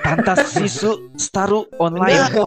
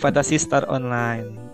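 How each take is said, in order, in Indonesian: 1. Diucapkan dengan aksen Jepang yang dibuat-buat. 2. Diucapkan dengan aksen biasa pembicara.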